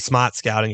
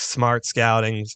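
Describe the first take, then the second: First: It is said in a Boston accent. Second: It is said in a general American accent.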